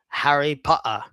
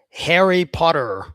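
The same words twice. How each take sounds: First: It is spoken in a strong English accent. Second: It is spoken in an American accent. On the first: "a strong English guy will say" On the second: "Very American"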